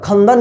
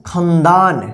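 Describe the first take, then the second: First: खंदन with short a sounds throughout, khandan; खंदन read the wrong way, all vowels short. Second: खंदान with a long aa in the second syllable, khandaan; खंदान read the right way, long second vowel; correct long second vowel. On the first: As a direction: say खंदन with no long vowel anywhere. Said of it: "खंदन नहीं होता है". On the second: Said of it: "क्या पढ़िएगा?". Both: Shown as a demonstration.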